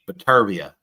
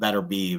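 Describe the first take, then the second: First: The name is said closer to its native form. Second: The name is said in an anglicized way. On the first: This is how it is said in his country. The speaker calls it right. "It's like uh Batervia" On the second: This is how people in America say it. The speaker calls it wrong. "I've been saying his name wrong. It's not Better Beeve"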